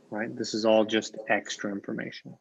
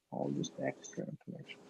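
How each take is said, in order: First: Said in the usual way. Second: Breathy whispered repeat, much softer; whispered echo. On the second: Shown as a demonstration. Teacher echoing the point to students, whispered. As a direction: let it fall to a whisper as an afterthought. Teacher echoes the phrase softly.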